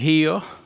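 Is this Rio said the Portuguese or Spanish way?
Portuguese. It is said with a Portuguese pronunciation. "in Portuguese you would say Rio"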